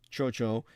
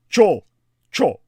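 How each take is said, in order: First: The name is slurred together loosely. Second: Each syllable is said separately and emphatically. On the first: The speaker calls it wrong. "I slur it when I pronounce it out of laziness" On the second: The speaker calls it right. "Correct pronunciation. ... much more emphatic"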